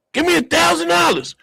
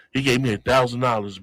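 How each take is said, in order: First: High, louder eager demand; acted demand. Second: Said in the usual way. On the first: Passenger at the open safe, high acted demand. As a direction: pitch it way up as a demand. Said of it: "I was like".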